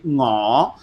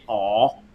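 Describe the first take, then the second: First: The word begins with a guttural ng sound. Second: The word begins directly with a vowel. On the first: "it has that that that guttural sound in" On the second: "they will usually cut off that N G and they'll just say aw"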